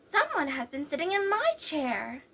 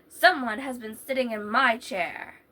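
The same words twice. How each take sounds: First: It is said in a middle-sized voice. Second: It is said in a great big voice.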